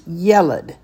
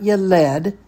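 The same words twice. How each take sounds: First: The stress is on the first syllable. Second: The stress is on the last syllable. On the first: The speaker calls it right. "The accent is on the ye" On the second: The speaker calls it wrong. "It's not yeled"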